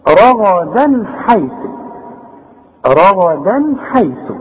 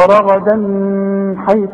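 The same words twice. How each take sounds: First: Slow رغدا حيث, clean unnasalised N before ح; clear izhar noon. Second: رغدا حيث with the N hummed before ح; wrong ghunna. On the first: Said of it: "يبقى أنا بظهر الإيه؟". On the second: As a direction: hold a buzzing nasal N between رغدا and حيث. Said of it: "اوعى تغن هنا". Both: Shown as a demonstration.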